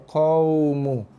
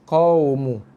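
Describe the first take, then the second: The two takes are said the same way.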